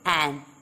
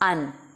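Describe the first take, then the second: First: The article is said with a full vowel. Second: The article is said with a reduced vowel. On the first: The speaker calls it wrong. "we don't say an" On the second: The speaker calls it right. "In natural speech, we say an"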